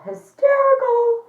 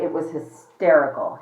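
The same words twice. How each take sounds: First: Hysterical said far higher and slower, drawn out; a high, stretched-out Hysterical for effect; emphatic repeat. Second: Said in the usual way. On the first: Real, not acted. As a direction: hit Hysterical hard and high.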